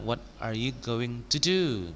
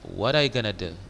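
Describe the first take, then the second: First: It is said in full, at normal pace. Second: It is said fast, with going to reduced.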